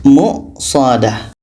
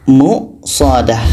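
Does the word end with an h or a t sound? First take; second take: h; h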